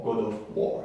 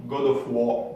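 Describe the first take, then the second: First: Said in the usual way. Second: God of War in a hammed-up English accent; mock English accent on God of War. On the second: Shown as a demonstration. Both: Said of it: "mon accent anglais qui déchire".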